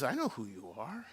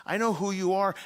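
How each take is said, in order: First: Low, soft, rising at the end; quiet knowing. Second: "I know who you are" firm and raised; emphatic assurance. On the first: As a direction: say it gently and low, left open. Jesus answers Peter, first take. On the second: Jesus repeats it with conviction. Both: Acted.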